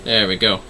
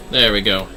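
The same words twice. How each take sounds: The two takes are said the same way.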